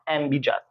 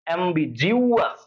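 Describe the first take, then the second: First: No 'yoo' sound follows the 'g'. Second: A 'yoo' sound follows the 'g'. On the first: The speaker calls it wrong. "Not" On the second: The speaker calls it right. "উচ্চারণটা এভাবে করবা"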